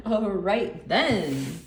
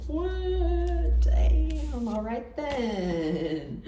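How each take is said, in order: First: "All right then" said again slowly through a laugh, rising at the end; laughing repeat. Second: A startled, high "What? Damn" that slows into a drawn-out, impressed "all right then"; mock surprise. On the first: Retold or imitated. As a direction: chuckle it out, amused and approving. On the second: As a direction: play someone caught off guard who comes round to being impressed. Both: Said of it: "Just these two alone are like".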